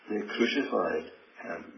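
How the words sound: The stress is on the word crucified. The manner of death was crucifixion. "that word in the middle"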